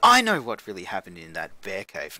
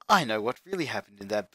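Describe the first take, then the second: First: It is said in a put-on character voice. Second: It is said in the speaker's natural voice.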